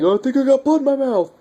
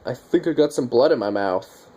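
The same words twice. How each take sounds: First: Much higher, panicked and rushed, imitating a scared man; freaking out. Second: Said in the usual way. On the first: Survivor panics after a zombie fight, high rushed freak-out. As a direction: squeal it out fast like you just realised you're infected. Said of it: "And he starts freaking out". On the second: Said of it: "he's like".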